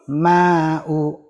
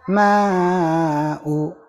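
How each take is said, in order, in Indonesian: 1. Vokal panjang ditahan selama dua ketukan. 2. Vokal panjang ditahan selama empat ketukan. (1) "Dua harokat, dua kali ketuk" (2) "Empat harokat, tiga kali ketukan singkat"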